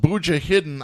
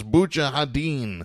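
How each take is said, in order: First: "Mujahideen" said like "booja-hidden"; as-spelled pronunciation. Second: "Mujahideen" said like "booja-ha-DEEN"; intended pronunciation. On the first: Reading out a militia group's misspelled name, "Mujahideen" as "booja-hidden". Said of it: "I think they meant to pronounce it as". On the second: Correcting how a group's name is said, "Mujahideen" as "booja-ha-DEEN". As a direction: end "Mujahideen" on a long stressed "deen". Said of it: "meant to pronounce it as Mujahideen". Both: Shown as a demonstration.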